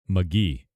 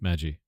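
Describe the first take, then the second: First: The G is said as a hard sound. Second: The G is said as a soft sound. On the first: "in German, it's pronounced with a hard G" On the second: "Australia with a soft G"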